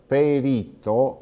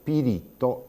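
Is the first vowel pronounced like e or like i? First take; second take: e; i. First: The first vowel sounds like e. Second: The first vowel sounds like i. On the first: This is the standard Italian form. "Invece di dire perito" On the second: This is the regional Sardinian Italian form. "diciamo pirito"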